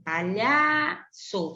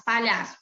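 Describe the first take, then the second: First: Palhaço drawn out, leaning long on LHA; palhaço slowly by syllables with LHA held; stressed penultimate syllable. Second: Said in the usual way. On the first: Shown as a demonstration. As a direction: stretch the middle of palhaço, pa-LHAAA-ço. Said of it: "é a sílaba mais forte dessa palavra". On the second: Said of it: "a penúltima sílaba como a sílaba mais forte".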